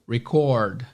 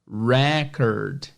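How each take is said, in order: First: It is said with the verb pronunciation. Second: It is said with the noun pronunciation. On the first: To capture audio or video. "E como verbo, record" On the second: A mark someone has achieved. "como a recordação, ou record, vai ser record"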